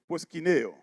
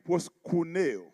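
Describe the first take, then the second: First: The vowel after the k sounds like 'ee'. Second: The vowel after the k sounds like 'oo'. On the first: This is the proper pronunciation. "pour une bonne prononciation, c'est proskineo" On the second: This is the ancient Greek pronunciation. "dans le grec ancien, il dit proskuneo"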